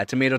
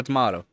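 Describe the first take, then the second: First: Tomato said as "tuh-MAY-toh" with a long ay; tomato, American tuh-MAY-toh; one way of saying it. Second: Tomato said as "tuh-MAH-toh" with a broad ah; tomato, British tuh-MAH-toh; the other way of saying it. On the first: Streamer shrugging off pronunciation, tomato with a long ay. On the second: Streamer shrugging off pronunciation, tomato with a broad ah. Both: Shown as a demonstration. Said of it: "Yeah, tomato, tomato".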